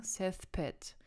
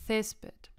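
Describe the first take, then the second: First: Césped with the stress shifted onto the final -ped; wrong last-syllable stress. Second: Césped stressed firmly on its first syllable, Cés-. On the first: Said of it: "werden auf der letzten Wortsilbe betont". (Césped falsch auf der letzten Silbe betont) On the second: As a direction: say Césped correctly, weight on the opening syllable. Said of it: "Man sagt". (Césped richtig auf der ersten Silbe betont) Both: Shown as a demonstration.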